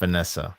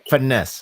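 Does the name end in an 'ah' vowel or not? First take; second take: yes; no. First: The name ends with an added 'ah' vowel. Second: The name ends without a final vowel. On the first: The speaker calls it wrong. "I said Finessa. Yeah, that's with the A" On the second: The speaker calls it right. "So it's finesse. It should that should be how you pronounce it"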